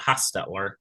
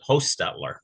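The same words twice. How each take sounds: First: The first vowel is a short O. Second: The first vowel is a long O. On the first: Some other people say it this way. "Some people pronounce it" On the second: This is how the speaker's family says it. "with a long O"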